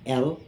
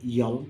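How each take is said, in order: First: The name begins directly with a vowel sound. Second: The name begins with an added y sound. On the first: The speaker calls it right. "L is standard name L" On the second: The speaker calls it wrong. "they say yell"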